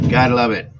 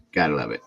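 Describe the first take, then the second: First: Louder, higher sarcastic repeat. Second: Said in the usual way. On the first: Real, not acted. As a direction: throw it out loud and sarcastic. Repeats phrase, second louder.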